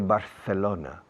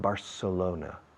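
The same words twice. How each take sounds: First: The 'c' is said as a th sound. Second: The 'c' is said as an s sound. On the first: The speaker calls it wrong. "Don't say Barcelona. People don't understand Barcelona" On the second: The speaker calls it right. "They understand Barcelona"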